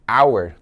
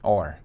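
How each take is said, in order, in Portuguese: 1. É pronunciada com a vogal 'ow', como em 'hour'. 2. É pronunciada com a vogal 'or', como em 'or'.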